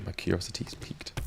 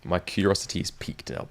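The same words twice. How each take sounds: First: Whispered, secretive; hushed intrigued whisper. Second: Said in the usual way. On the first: Real, not acted. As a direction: lean in and breathe it. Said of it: "repeated as a whisper". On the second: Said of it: "first take plain".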